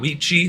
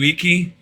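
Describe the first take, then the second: First: It starts with a V and has a ch sound. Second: It starts with a W and has a K sound. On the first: This is the Italian pronunciation. The speaker calls it wrong. "it's not Vici, that's Italian" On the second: This is the ancient Roman pronunciation. The speaker calls it right. "Roman, C's were always K, and they didn't have V's, and it was always pronounced W"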